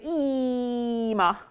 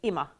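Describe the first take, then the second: First: The first vowel is drawn out long. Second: The first vowel is kept short. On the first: The speaker calls it wrong. "not an extended pronounced E. So if I was going to say this, I wouldn't say ima" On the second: The speaker calls it right. "I just say ima"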